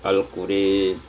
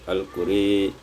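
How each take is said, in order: Both takes have the same delivery.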